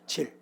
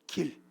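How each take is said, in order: First: The word starts with a j sound. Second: The word starts with a g sound.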